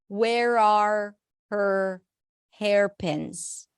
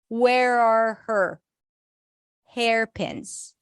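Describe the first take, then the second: First: Every word is pronounced fully and separately. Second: The R sounds are reduced and blended together. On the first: "let's pronounce it fully right now" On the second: "if we want to reduce the R"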